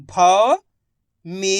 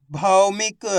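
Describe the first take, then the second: First: भौमिक drawn out as bhau, mee, ka with pauses; syllable by syllable. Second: Said in the usual way. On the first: Shown as a demonstration. Teacher sounding out भौमिक for learners, syllable by syllable. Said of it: "एक अक्षर का उच्चारण करके". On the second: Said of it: "इनको आपस में लाके पढ़ना है".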